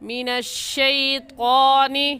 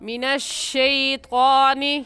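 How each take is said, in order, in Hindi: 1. 'shai' ध्वनि छोटी और नरम बोली जाती है। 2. 'shai' ध्वनि छोटी और नरम बोली जाती है।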